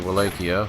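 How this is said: It is pronounced the British way. "the British say Wallachia"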